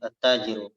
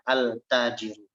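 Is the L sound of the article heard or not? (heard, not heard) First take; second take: not heard; heard. First: The article's L blends into a doubled T. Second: The article's L is clearly pronounced before T. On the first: The speaker calls it right. "dibaca at-tajiru" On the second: The speaker calls it wrong. "Kita tidak membaca al-tajiru. Itu berat"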